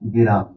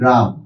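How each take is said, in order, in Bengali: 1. g ও r-এর মাঝে একটি স্বরধ্বনি যুক্ত হয়। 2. g ও r একসাথে একটি ব্যঞ্জনগুচ্ছ হিসেবে যুক্ত। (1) "কেউ একজন এটাকে উচ্চারণ করছে গেরাম" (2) "আপনি বললেন গ্রাম"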